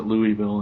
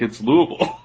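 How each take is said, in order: First: "Louisville" said as LOO-ee-vil; LOO-ee-vil, as an outsider says "Louisville"; outsider pronunciation. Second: "Louisville" squashed to LOO-uh-vul, higher; LOO-uh-vul, middle swallowed in "Louisville"; correcting pronunciation. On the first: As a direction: give "Louisville" a clear "ee" middle. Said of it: "he calls it Louisville". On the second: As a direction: correct with a slurred local "Louisville". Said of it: "she corrects him". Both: Retold or imitated.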